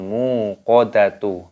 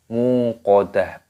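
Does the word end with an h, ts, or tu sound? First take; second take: tu; h. First: The word ends with a tu sound. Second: The word ends with an h sound. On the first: The speaker calls it wrong. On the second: The speaker calls it right. "tak marbutohnya di sini dimatikan menjadi huruf ha"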